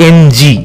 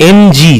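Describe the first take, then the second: Both takes have the same delivery.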